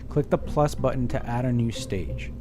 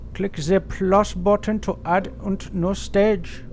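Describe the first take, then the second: First: It is read in the speaker's normal voice. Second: It is read in an exaggerated put-on accent.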